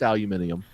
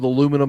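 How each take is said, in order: First: The word is said with five syllables. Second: The word is said with four syllables. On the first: It is the form the speaker prefers. The speaker calls it right. "pronounce the damn letters" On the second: It is the form used for coworkers. The speaker calls it wrong. "I have to say it that way for the hicks that I work with"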